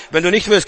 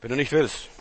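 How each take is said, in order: First: Said in the usual way. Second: Dropped low and soft; hushed repeat. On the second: Acted. Preacher repeats it softly to the congregation. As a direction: let it sink in quietly.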